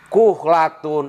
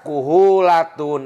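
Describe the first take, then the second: First: The h runs straight into the l. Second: An extra u vowel separates h and l. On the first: The speaker calls it right. "ada kalimat kuhlatun" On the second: The speaker calls it wrong. "Dibaca kuhulatun apa? ... Tidak boleh"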